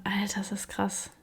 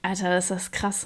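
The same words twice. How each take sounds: First: Breathless awed whisper. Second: Said in the usual way. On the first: Real, not acted. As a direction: whisper it in disbelief. Repeats phrase, then whispers it.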